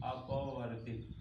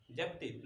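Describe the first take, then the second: First: अपवर्तित said carefully, syllable by syllable, with the अ at the start; correct term. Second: जपतित said as the mistaken term, with a J at the start; the slip the teacher is about to correct: जपतित; wrong word. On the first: Teacher correcting the class on the term: careful, deliberate अपवर्तित. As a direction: model the right word अपवर्तित slowly for students. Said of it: "उसको बोलेंगे अपवर्तित". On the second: Teacher voicing students' wrong term for refracted ray: quiet, falling जपतित. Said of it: "उसको जपतित नहीं बोलेंगे". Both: Shown as a demonstration.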